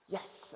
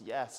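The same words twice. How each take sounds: First: The word is said crisply and with emphasis. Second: The word is said flatly and casually. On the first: The speaker calls it right. "it's yes" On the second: The speaker calls it wrong. "It's not just yes"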